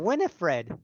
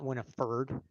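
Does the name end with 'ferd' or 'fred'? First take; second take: fred; ferd. First: The name ends with the sound 'fred'. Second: The name ends with the sound 'ferd'. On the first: The speaker calls it right. "Winifred is F R E D" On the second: The speaker calls it wrong. "not Winifred"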